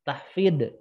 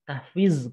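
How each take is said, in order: First: The final consonant is a d sound. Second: The final consonant is a plain z sound. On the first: "Salah juga" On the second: "salah juga"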